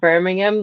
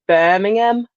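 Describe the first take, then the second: First: It is said in an American accent. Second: It is said in a local Birmingham accent.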